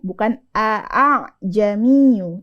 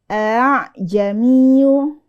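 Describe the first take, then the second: First: The second hamzah is pronounced as a full stop. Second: The second hamzah is softened toward a long a. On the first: The speaker calls it wrong. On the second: The speaker calls it right. "Hamzah yang kedua harokatnya dimasukkan ke harokat alif"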